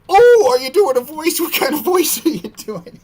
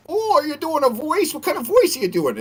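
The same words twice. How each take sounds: First: High, louder squeaky mimicry thrown back; copying his voice. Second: High squeaky question, mock innocent. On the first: Streamer mocks the gamer by copying his high voice. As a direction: parrot his silly high voice right back at him. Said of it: "I did the exact voice he was doing". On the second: Gamer asks the streamer about his voice, high and squeaky. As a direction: imitate him in a high put-on voice. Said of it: "And he was like".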